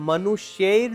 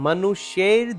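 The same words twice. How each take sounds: The two takes are said the same way.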